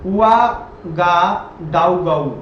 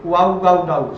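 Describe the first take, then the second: First: The city name drawn out syllable by syllable; slow spelling-out. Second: Said in the usual way. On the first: Shown as a demonstration. Teacher sounding out a strange capital name, very slow. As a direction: sound out उआगाडाउगाउ slowly, each syllable stretched. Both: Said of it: "अब इसका नाम देखो".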